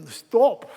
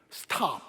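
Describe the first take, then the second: First: British "Stop" with a rounded O, louder; demonstrated British pronunciation of "Stop"; British accent. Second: Said in the usual way. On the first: Shown as a demonstration. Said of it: "영국식으로 발할-, 발음을 하자면".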